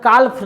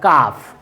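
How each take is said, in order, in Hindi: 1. इस शब्द में L की ध्वनि साफ़ बोली जाती है। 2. इस शब्द में L की ध्वनि साइलेंट है। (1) "काल्फ नहीं बोलते हैं" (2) "एल का जो साउंड होता है वो क्या हो जाता है, साइलेंट"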